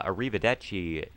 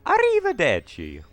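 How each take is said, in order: First: Said in the usual way. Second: High, loud Italian "Arrivederci" sung out like Mario's death voice, the "ci" as "chi"; Mario death cry. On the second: Retold or imitated. Player imitating Mario's death sound, high and loud. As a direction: belt "Arrivederci" like a cartoon plumber going down. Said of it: "a lot of his death sounds are really funny".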